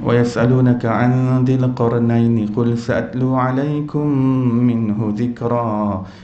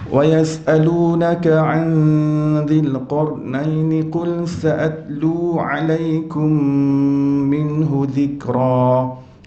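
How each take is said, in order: First: It is recited at a fast tempo. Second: It is recited at a slow, measured tempo. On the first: "Kalau hadar ni dia dia agak pantas tempo bacaannya tu" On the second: "Dengan tanwinnya, dengan dengungnya, itu tartil"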